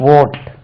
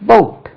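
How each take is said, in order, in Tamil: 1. இந்தச் சொல் உயிர் எழுத்தில் தொடங்குகிறது, 'v' இல்லை. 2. இந்தச் சொல் தெளிவான 'v' ஒலியுடன் தொடங்குகிறது. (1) "இது ஓட்டாம்" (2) "இது பவுட்"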